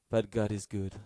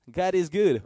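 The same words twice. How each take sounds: First: Said in the usual way. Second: Higher and louder, ringing out; joyful proclamation. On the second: Acted. Preacher shouts praise to the congregation, loud and joyful.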